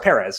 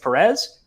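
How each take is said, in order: First: The stress falls on the first syllable. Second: The stress falls on the second syllable. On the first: The speaker calls it right. "accent is over the E there" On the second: The speaker calls it wrong. "Or sorry"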